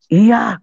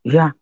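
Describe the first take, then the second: First: High, loud retold "Iya"; iya makin kencang. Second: Imitating a grudging father's yes; short, unsweet "Iya"; iya tidak manis. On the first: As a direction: imitate a father's yes, even louder. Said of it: "Makin kenceng malahan". (menirukan iya yang malah makin kencang) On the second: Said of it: "Iyanya yang manis dong". (menirukan iya yang kurang manis)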